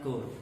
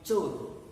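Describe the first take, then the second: First: The word begins with a 'k' sound. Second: The word begins with a 'ch' sound. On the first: The speaker calls it wrong. "not core" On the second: The speaker calls it right. "C H O R E is chore"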